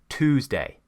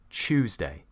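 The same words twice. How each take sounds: First: It begins with a plain t and oo. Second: It begins with a ch sound. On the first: This is the American pronunciation. "An American says" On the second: This is a common southern British pronunciation. "a lot of British people will actually say"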